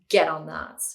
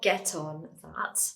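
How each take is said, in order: First: The T in get sounds like a D. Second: The T in get is a clear T. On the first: The speaker calls it right. "The T kind of turns into a D" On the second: The speaker calls it wrong. "when we say this really fast, it's not get on that"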